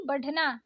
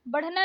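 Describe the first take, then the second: First: बढ़ना with aspirated flap ढ़; correct flapped ढ़. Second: बढ़ना with stopped ढ; wrong hard ढ. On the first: Teacher correcting learners, flapped बढ़ना. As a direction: flick the ढ़ in बढ़ना. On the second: Teacher showing learners the mistake, hard बढ़ना. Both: Shown as a demonstration. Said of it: "नहीं".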